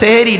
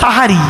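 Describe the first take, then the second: First: The first vowel sounds like e. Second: The first vowel sounds like a. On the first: The word relates to doing magic. The speaker calls it wrong. "ওটা সেহেরি নয়" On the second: The word means the pre-dawn meal. The speaker calls it right. "ওটা হলো সাহারি"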